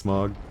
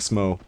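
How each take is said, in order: First: The name ends with a hard g sound. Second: The name ends on an open vowel sound. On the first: This is the speaker's own preferred pronunciation. The speaker calls it right. "that's how I pronounce it" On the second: This is how video essayists pronounce it. The speaker calls it wrong. "I'm not saying Smo"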